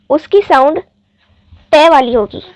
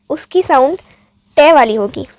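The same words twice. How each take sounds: The two takes are said the same way.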